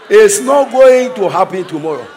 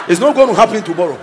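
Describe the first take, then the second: First: Going stretched and loud; louder declaration. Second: Said in the usual way. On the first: Shown as a demonstration. Preacher shouting it won't be tomorrow. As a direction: proclaim it loudly. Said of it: "repeated louder".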